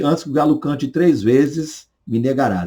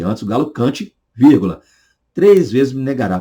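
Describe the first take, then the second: First: The pause comes after 'três vezes'. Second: The pause comes before 'três vezes'.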